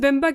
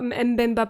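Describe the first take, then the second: First: The name begins with a plain b sound. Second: The name begins with an m before the b. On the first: The speaker calls it wrong. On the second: The speaker calls it right.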